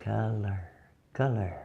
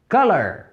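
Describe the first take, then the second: First: Color said softly, /kala/, much quieter; quiet demo word; soft model word. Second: Full-voice demo word; clear model word. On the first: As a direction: murmur Color gently for them to hear. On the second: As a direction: say Color out clearly. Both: Shown as a demonstration. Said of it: "Ouçam bem".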